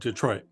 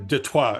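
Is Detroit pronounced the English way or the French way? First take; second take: English; French. First: It is said with an ordinary English pronunciation. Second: It is said with a French-style pronunciation.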